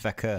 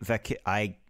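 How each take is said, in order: First: The name is pronounced in its usual accepted way. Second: The name is pronounced in an odd, unusual way. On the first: The speaker calls it right. "But it's Vakur, isn't it? Everyone says Vakur" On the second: The speaker calls it wrong. "I want to pronounce it weird?"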